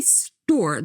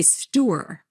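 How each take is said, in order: First: "store" said as one syllable. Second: Jersey "store" in two syllables; New Jersey drawn-out "store"; New Jersey accent. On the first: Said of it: "they say it with one syllable". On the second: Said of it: "from New Jersey, you say". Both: Shown as a demonstration.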